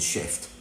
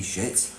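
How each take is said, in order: First: Shift, the word with the F added; contrast word. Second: Shit said short and quiet, with a falling end; the word shit, before the F is added; plain word. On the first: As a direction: shift said soft and low, the F clearly heard. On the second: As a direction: say shit softly as one word after spelling it. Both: Shown as a demonstration. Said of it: "Put an F in it".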